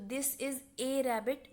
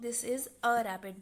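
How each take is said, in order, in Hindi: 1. आर्टिकल को पूरे 'ay' की तरह बोला जाता है। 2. आर्टिकल को छोटे 'uh' की तरह बोला जाता है। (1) "दिस इज ए रैबिट भी बोलते हैं कुछ लोग" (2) "कुछ लोग दिस इज अ रैबिट बोलते हैं"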